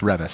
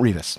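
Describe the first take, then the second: First: The name begins like the word 'reverence'. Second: The name does not begin like 'reverence'. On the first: The speaker calls it right. "Because it sounds like reverence" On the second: The speaker calls it wrong. "It's not Revis"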